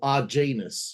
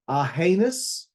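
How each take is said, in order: First: The middle consonant is a hard g sound. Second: The middle consonant is a soft h sound. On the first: This is how the name looks when written. "like that, that's how, you know, it appears on the screen" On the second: This is how the name is really pronounced. "that's how you say it, right? ... but I think it's Arhanus"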